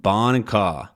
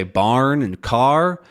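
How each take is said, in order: First: BARN and CAR as "bahn" and "cah"; non-rhotic, R dropped. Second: BARN and CAR with the R pronounced; rhotic R. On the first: Teacher showing non-rhotic dialects, dropped R. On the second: Teacher showing rhotic dialects, clear R. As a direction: sound every R in BARN and CAR. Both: Shown as a demonstration. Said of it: "rhotic and non-rhotic dialects".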